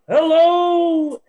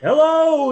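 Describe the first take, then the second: First: It is said in a put-on feminine voice. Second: It is said in the speaker's normal voice. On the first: A different character is speaking. "with a slightly more feminine voice" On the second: The usual host is speaking. "I can just be [name]"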